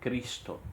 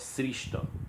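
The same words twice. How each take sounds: First: The word begins with a hard k sound. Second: The word begins with an sh sound. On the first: The speaker calls it right. "se pronuncia Ki" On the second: The speaker calls it wrong. "como se fosse o som de X"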